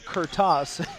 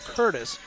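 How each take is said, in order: First: The surname sounds like a Russian name. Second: The surname sounds like a plain English name. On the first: This made some people think the player was Russian. The speaker calls it wrong. "not Kurtas, ... that led some to believe that Jonathan Curtis was Russian" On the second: This is how the player says his own name. The speaker calls it right. "But it's Jonathan Curtis"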